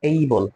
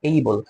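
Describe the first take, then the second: No difference in how they are said.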